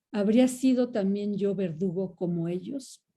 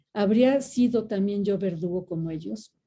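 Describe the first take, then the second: Both takes have the same delivery.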